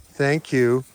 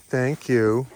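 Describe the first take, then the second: No difference in how they are said.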